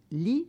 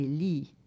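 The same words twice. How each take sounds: First: "lit" with a short, brief i. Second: "lit" with a long, drawn-out i. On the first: Teaching the old short i of lit, brief vowel. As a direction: say "lit" with a quick short i, as in bed. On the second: Teaching the old long i of lit, long vowel. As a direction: hold the i of "lit" long, as in lie of wine. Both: Shown as a demonstration. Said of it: "la différence entre".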